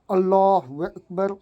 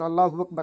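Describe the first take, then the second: First: It is said slowly and calmly. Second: It is said quickly and hurriedly.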